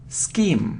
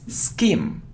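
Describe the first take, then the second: No difference in how they are said.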